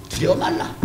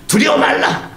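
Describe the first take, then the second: First: "두려워 말라" high but much softer; soft reassurance. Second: "두려워 말라" raised high and loud; loud proclamation. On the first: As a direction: murmur "두려워 말라" gently. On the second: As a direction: call out "두려워 말라" to the people. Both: Shown as a demonstration.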